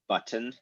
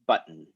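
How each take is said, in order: First: Every sound is pronounced carefully and in full. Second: The last syllable is a syllabic n with no vowel. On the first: The speaker calls it wrong. "I just hypercorrected the hell out of it and it didn't sound realistic at all" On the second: The speaker calls it right. "we generally pronounce this button"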